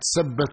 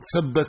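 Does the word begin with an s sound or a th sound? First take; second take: s; th. First: The word begins with an s sound. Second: The word begins with a th sound. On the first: It comes out as a curse instead of a blessing. The speaker calls it wrong. "الثاء تنطقها سين" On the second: It asks that the feet be made firm. The speaker calls it right. "هي تريد أن تقول ثبت الله أقدامكم"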